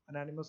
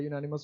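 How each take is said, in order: First: The word begins with a plain vowel sound. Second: The word begins with a 'yoo' sound. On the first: The speaker calls it wrong. "अनैनिमस नहीं होता" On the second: The speaker calls it right. "यूनानिमस होता है"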